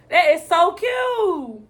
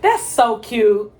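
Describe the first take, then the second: First: Higher, slow, drawn-out gushing. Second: Lower, slow, drawn-out gushing. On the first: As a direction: stretch it out and lift it. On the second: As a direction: stretch it out low and fond. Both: Real, not acted. Gushing over a moment.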